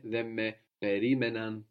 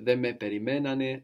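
First: Περίμεναν with the stress moved back to ρί; accent pulled back. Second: Περιμένανε with the stress on μέ, the third syllable from the end; accent on μέ. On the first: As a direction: say περίμεναν, leaning on ρί. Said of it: "the accent moves back from περιμένουν". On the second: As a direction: say περιμένανε, leaning on μέ. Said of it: "then we don't need to move the accent". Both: Shown as a demonstration.

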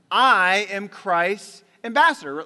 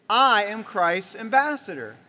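First: Loud and slow, each word weighted; slow declaration. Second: Said in the usual way. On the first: Shown as a demonstration. Preacher models the line before the church repeats it, slow and loud. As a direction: lead the room in proclaiming it. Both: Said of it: "Let's say it".

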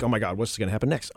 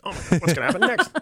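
First: Low, soft, quick muttered reaction; hurried suspenseful reaction. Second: Quick, laughing mock suspense; excited suspenseful reaction. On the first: Acted. Host acts out a hooked viewer, hushed and hurried. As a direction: run it out fast and under the voice. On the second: Host replays a hooked viewer, giddy and hurried. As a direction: rush it out with a laugh.

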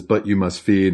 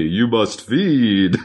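First: Said in the usual way. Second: Slow, drawn-out creaky fry; vocal fry. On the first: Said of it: "He says". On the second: Retold or imitated. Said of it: "vocal fry".

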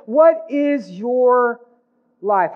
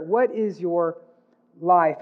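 First: Stretched, loud and high, weight on WHAT; slow emphatic question. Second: Said in the usual way. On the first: Shown as a demonstration. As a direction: lean hard on "What", drawing each word out. Preacher pressing the key question.

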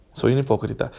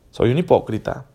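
Both takes have the same delivery.

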